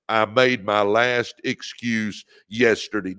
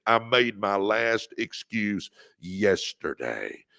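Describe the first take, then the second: First: Said in the usual way. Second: Slow, deliberate vow, every word weighed; slow it down and mean each word; like you mean it. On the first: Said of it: "Come on, say it". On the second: Shown as a demonstration. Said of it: "say it like you mean it".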